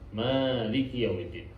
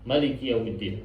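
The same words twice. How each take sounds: First: The first vowel of Maliki is drawn out long. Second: The first vowel of Maliki is kept short.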